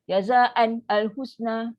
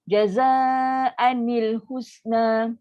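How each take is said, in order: First: No added 'i' vowel links the n to husna. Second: An added 'i' vowel links the n to husna. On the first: The speaker calls it wrong. "tu ramai yang baca mentam je tu" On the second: The speaker calls it right. "kaedah dia kalau letak baris bawah, baru boleh bunyi"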